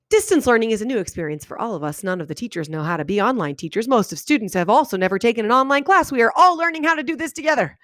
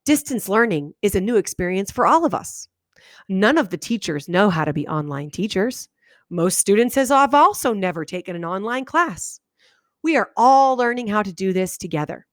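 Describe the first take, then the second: First: Sentences run together with no breaks between them; run-on read without pauses. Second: Each sentence ended with a clear pause; read with pauses. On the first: Teacher demoing how a run-on sounds in her head, no pauses. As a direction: read it as one breathless run-on, no stops. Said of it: "That's how I read it in my head". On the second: Student correcting the teacher, reading with pauses at each stop. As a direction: pause after every sentence, as the student hears it. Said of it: "It sounds like this". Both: Shown as a demonstration.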